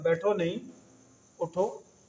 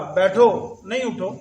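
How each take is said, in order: First: The pause comes after 'nahin', meaning don't sit. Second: The pause comes after 'baitho', meaning don't rise.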